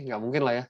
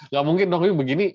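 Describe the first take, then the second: First: Said in the usual way. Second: Emphatic no. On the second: Real, not acted. Teacher rejecting a wrong graph.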